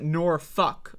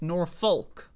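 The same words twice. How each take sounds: First: The L sound in the middle is silent. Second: The L sound in the middle is pronounced. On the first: "people pronounce it Norfolk" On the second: "There is an L there. It's Norfolk"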